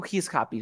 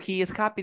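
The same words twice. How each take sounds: First: "He is" unido en una sílaba, "jis"; contracción. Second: "He is" en dos sílabas, "ji is"; forma completa. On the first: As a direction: junta "He is" de un golpe. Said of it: "de frente". ("He is happy" contraído como "jis happy") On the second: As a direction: separa "He is" antes de "happy". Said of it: "En lugar de decir". ("He is happy" sin contraer, terminando arriba) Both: Shown as a demonstration.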